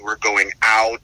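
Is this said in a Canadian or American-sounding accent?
American. It is said in a non-Canadian accent.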